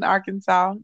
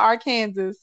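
First: The word ends with a 'saw' sound. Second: The word ends like the word 'Kansas'. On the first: The speaker calls it right. "We're cool down here in Arkansas" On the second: The speaker calls it wrong. "not Arkansas"

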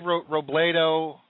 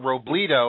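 First: The middle vowel sounds like a long A. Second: The middle vowel sounds like a long E. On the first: "I want to give it that long A or long E sound" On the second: "I want to give it that long A or long E sound"

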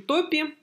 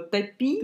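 First: The stress is on the first syllable. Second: The stress is on the second syllable. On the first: It names swamps. The speaker calls it right. "Но нет, это все-таки топи" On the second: It is a command telling someone to drown something. The speaker calls it wrong. "типа повелительное наклонение топи"

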